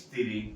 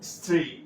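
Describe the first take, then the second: First: An i vowel is added before the s. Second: The word begins directly with the s consonant. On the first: This is the everyday form with an added vowel. The speaker calls it wrong. "আমরা বলি স্ত্রী" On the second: This is the standard form. The speaker calls it right. "সঠিক শব্দ হচ্ছে স্ত্রী"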